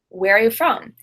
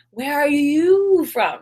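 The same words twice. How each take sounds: First: The stress falls on where and from, not you. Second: The stress falls strongly on the word you. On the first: A general, neutral question. "I stress where, I stress a little bit the verb are, and I stress from" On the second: The question targets one particular person. "I'm asking very specifically where you are from"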